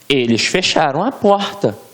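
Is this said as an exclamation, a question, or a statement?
exclamation. It is said with a strong exclamatory tune. "com um ponto de exclamação"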